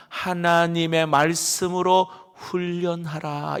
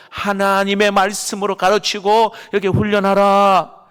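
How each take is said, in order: First: "하나님의 말씀으로 훈련하라" said slowly, with weight on "말씀으로"; preacher slowly restating the command; slow emphatic restatement. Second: "하나님의 말씀으로 가르치고 이렇게 훈련하라" louder and higher, punching "가르치고", falling at the end; preacher driving the command home; forceful proclamation. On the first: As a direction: spell out "말씀으로" deliberately, each syllable weighed. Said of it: "다시 말씀드립니다". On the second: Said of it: "다시 말합니다". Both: Shown as a demonstration.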